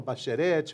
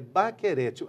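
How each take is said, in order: First: The middle consonant is a sh sound. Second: The middle consonant is a hard k sound. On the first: The speaker calls it wrong. "As pessoas falam Bacherete" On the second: The speaker calls it right. "a pronúncia é Baquerete"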